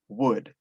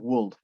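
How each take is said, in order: First: The word is said with no L sound. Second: An L sound is pronounced in the word. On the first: The speaker calls it right. "sino would" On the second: The speaker calls it wrong. "No es would"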